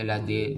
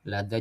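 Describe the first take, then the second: First: The final vowel leans toward an e sound. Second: The final vowel is a plain open a. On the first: The speaker calls it wrong. "tidak dibaca ... lade" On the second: The speaker calls it right. "lada juga"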